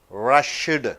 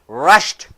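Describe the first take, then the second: First: The -ed ending is said as a separate syllable. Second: The -ed ending joins the word in one syllable. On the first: The speaker calls it wrong. "in the written English" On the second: The speaker calls it right. "But in spoken English, ... Single syllable"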